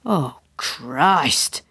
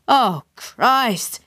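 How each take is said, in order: First: Low groan of dread; drawn-out, unexcited oath; dismayed. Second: Higher-pitched groaned oath; exasperated, pitched-up dismay. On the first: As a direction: let it sink out in dismay. Tim caught out, first reaction. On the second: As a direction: groan it with rising dread. Tim caught out, repeats his oath. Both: A narrator's reading.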